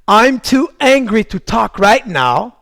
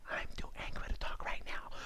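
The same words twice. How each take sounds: First: Firm, drawn-out demonstration phrase; slow, deliberate declaration. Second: Barely audible whisper. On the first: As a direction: spell it out slowly and forcefully. English anger phrase, full-voiced take. (phrase lente, ferme et appuyée) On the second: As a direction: whisper it as a hushed echo. Same phrase repeated whispered. (chuchoté, presque inaudible) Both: Shown as a demonstration.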